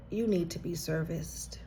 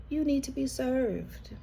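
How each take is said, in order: First: Breathy unvoiced whisper, dropped soft; whispered aside. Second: Said in the usual way. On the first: Real, not acted. Reader tells viewer they need care, whispering. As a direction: let the phrase "you need to be serviced" slip out as a hushed whisper.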